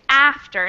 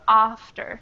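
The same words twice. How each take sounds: First: It is said with an American vowel. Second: It is said with a British vowel. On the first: "I would say after" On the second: "in British pronunciation, that would be a little different"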